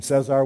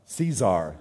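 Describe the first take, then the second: First: Cesar said as "SEH-zar"; Cesar, first vowel like "set"; wrong pronunciation. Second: Caesar said as "SEE-zar"; Caesar, corrected to SEE-zar; corrected name. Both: Real, not acted. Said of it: "I didn't get the thing right".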